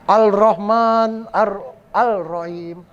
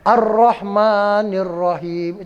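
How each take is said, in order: First: A clear l is heard before each r. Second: The l blends into the r, unheard. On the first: The speaker calls it wrong. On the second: The speaker calls it right.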